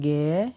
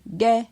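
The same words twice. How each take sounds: First: The syllable has a rising tone. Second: The syllable has a mid tone. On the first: "Avec un ton montant" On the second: "Avec un ton moyen"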